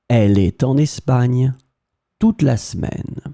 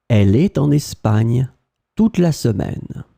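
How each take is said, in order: The two takes are said the same way.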